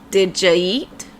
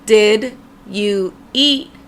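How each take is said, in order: First: The words run together in connected speech. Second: Each word is said separately and clearly.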